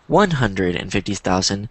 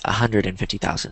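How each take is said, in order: First: Every word is said fully and carefully. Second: The words are run together quickly and reduced. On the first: "instead of saying" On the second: "I might say one hundred fifty thousand because it's quicker, it's easier to say"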